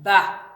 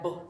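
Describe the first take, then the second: First: The b is followed by an added vowel sound. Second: A short, clipped b with no vowel after it. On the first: The speaker calls it wrong. "and not ba" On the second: The speaker calls it right. "The child is supposed to sound like that"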